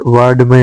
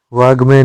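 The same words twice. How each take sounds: First: वाड्मय with a retroflex d; correct consonant. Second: वाग्मय with a g; wrong consonant. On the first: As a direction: say वाड्मय as "vaad-may". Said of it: "होता है". (वाड्मय में ड) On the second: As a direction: say वाग्मय as "vaag-may". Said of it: "नहीं होता है". (वाग्मय में ग) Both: Shown as a demonstration.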